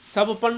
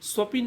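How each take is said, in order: First: An a vowel comes between p and n. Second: An i vowel comes between p and n. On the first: "स्वपन नहीं होता है" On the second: "स्वपिन नहीं होता है"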